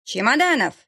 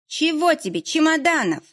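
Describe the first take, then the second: First: A mild mock bellow, a bit higher; roar. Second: Higher, grumpy woman calling up from the yard; a put-upon caretaker, annoyed at being hailed; displeased woman's voice. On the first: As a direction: bellow his name across the yard. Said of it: "взревела тут Зоя Ивановна". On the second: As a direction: Zoya Ivanovna shouting up at Fedya, displeased. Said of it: "недовольный женский голос". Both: A narrator's reading.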